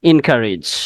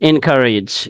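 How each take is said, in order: The two takes are said the same way.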